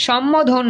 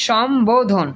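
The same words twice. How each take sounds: First: সম্বোধন said as shom-mo-dhon; wrong pronunciation. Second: সম্বোধন with a clear b, slowly; correct pronunciation. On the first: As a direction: drop the b in সম্বোধন for a double m. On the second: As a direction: say সম্বোধন slowly as shom-bo-dhon. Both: Shown as a demonstration. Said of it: "সম্বোধন না".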